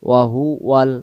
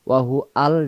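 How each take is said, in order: First: Huwal is said smoothly with a linking w sound. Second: Huwal is split into hu and al separately. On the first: The speaker calls it right. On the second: The speaker calls it wrong.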